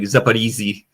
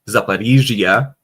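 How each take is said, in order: First: The zh letters are said as a plain z. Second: The zh letters are said as a soft zh. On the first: The speaker calls it wrong. "people will just be like Zaporizhzhia because there's a Z H" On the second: The speaker calls it right. "it's actually Zaporizhzhia"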